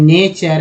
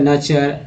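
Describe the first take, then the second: First: The first vowel is an ay sound. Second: The first vowel is a short uh sound. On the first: "ई लगाएंगे" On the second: "अ लगा देते हैं"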